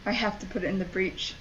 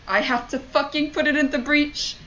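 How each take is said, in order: First: Soft, quick, under the breath; subdued realisation. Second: Exasperated disbelief. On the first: Player working out the task, subdued realisation. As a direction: say it low to yourself. First take, resigned realisation. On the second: Player realising what the game demands, exasperated disbelief. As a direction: pitch raised, incredulous protest. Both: Real, not acted.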